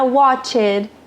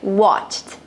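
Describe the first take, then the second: First: The ending is said as an extra syllable. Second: The ending is a short, strong T sound. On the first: The speaker calls it wrong. "Não será watched" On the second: The speaker calls it right. "vai ser watched"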